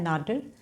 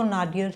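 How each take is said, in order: First: नाडिर said the American way as two syllables, "nay-deer"; नाडिर clipped to "nay-deer", American style; American pronunciation. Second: नाडियर said as British "nay-dee-er", three syllables with a final r; नाडियर in British style, "nay-dee-er"; British pronunciation. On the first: Teacher giving students the American version, "nay-deer". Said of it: "American pronunciation क्या है?". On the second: Teacher showing students the British way, "nay-dee-er". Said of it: "British pronunciation है वो तो नाडियर है". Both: Shown as a demonstration.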